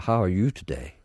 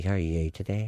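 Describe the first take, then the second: First: "you" with a full oo vowel; careful U sound. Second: "you" said as yay; local pronunciation. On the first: Showing how some of them speak, "you" as yoo. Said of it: "some of them say you". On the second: Showing what we say at home, "you" as yay. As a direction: run into "you" with an ay vowel. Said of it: "We say". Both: Shown as a demonstration.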